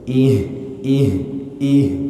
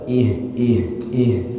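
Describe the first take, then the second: First: The syllables are drawn out long. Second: The syllables are said fairly quickly. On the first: "kalau dipanjangkan" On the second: "Kalau agak cepat"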